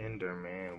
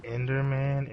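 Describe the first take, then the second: First: Much softer, lower, almost cooing the name; hushed coaxing. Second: Said in the usual way. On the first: Real, not acted. Gamer softly coaxing the Enderman by name. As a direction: lean in and murmur it gently.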